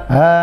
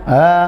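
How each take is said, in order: No difference in how they are said.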